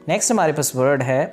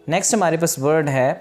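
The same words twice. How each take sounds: Both takes have the same delivery.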